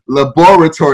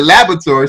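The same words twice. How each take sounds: First: "laboratory" as luh-BOR-uh-tor, stress on BOR; accented pronunciation. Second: "laboratory" as LAB-ruh-tor, middle A swallowed; American pronunciation. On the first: Shown as a demonstration. Explaining how he spelt it, "laboratory" with BOR stressed. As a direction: sound out each syllable of "laboratory". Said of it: "how we emphasize every syllable". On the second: Retold or imitated. Quoting the other kids, "laboratory" as LAB-ruh-tor. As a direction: say "laboratory" quickly with stress on LAB. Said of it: "The other kids pronounced it".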